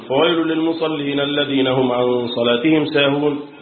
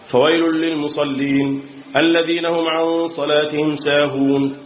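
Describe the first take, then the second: First: The phrase runs on without a pause. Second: There is a pause after the first phrase. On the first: The meaning is kept ahead of stopping at the verse end. "بيوصل على طول" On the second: The stop at the verse end is kept without going back. "الوقف على رأس الآية وعدم الرجوع"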